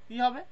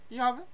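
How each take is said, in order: No difference in how they are said.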